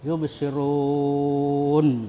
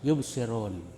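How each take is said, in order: First: The vowel before the final n is held very long. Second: The vowel before the final n is held briefly. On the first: "tiga alif atau enam harakat" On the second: "satu alif atau dua harakat atau seperti mat tabi'i"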